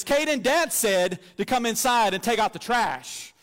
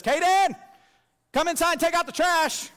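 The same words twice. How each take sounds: First: Slower, a touch louder and very sure of herself; bossy authority. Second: A much higher, louder shout out the back door; retold yell. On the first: Retold or imitated. Five-year-old passing on Dad's order to her brother, mock stern. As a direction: deliver Dad's order like it's law. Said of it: "with all the authority that I have invested in her". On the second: Little sister calling her brother in from the back door, loud high yell. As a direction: holler for her brother across the yard. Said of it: "yells and says".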